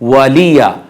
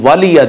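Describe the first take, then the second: First: The l is followed by a vowel. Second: The l has no vowel after it. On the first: The speaker calls it right. "यह गलत है" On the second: The speaker calls it wrong. "लाम को साकिन कर देते हैं"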